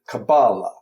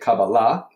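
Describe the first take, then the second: First: The stress is on the second-to-last syllable. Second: The stress is on the last syllable.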